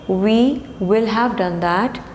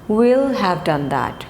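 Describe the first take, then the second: First: The word will is said in full. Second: The word will is contracted onto we.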